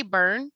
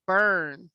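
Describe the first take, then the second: First: Said in the usual way. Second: "burn" with the er drawn long; stretched out. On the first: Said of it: "the sounds are squished together". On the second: Shown as a demonstration. Teacher showing how burn is not said, stretched out. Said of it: "doesn't stretch out the same way".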